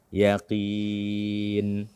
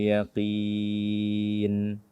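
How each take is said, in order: No difference in how they are said.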